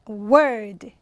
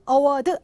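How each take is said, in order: First: The second syllable is stressed, first vowel reduced. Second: The first syllable is stressed with a full vowel. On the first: The speaker calls it right. "뒤에 강세가 받게 됐습니다" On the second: The speaker calls it wrong. "award 아니고요"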